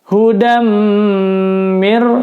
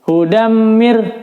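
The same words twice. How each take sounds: First: The nasal hum is held for a long time. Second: The nasal hum is cut short quickly. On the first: The speaker calls it right. "ditahan empat ketukan" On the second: The speaker calls it wrong. "bi gunnah tidak ditahan empat ketukannya"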